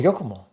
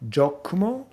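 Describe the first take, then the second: First: The name begins with a Y sound. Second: The name begins with a J sound.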